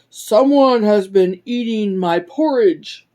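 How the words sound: It is said in a big, deep voice. A large character is speaking. "cried out in his great big voice"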